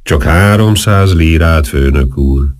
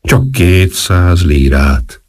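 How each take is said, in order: First: Slow, wheedling whine; whining plea. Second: Very slow, drawn-out wheedle; lower bid, still whining. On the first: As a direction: beg for the money, slowly. (lassú, siránkozó könyörgés) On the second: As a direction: haggle down, pleading slowly. (nagyon lassú, alkudozó siránkozás) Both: A narrator's reading. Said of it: "mondta siránkozva".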